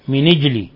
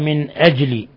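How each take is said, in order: First: The n takes an i, with no glottal stop. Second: The n is vowelless, followed by a glottal stop. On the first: "بكسر النون مع النقل" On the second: "هذه قراءة الجماعة"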